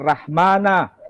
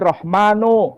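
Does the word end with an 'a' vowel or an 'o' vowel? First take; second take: a; o. First: The final vowel is pronounced as a. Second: The final vowel is pronounced as o. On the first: This is the Eastern Aramaic dialect form. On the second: This is the Western Aramaic dialect form. "menggunakan dialek Aram Barat... muncul huruf vokal O"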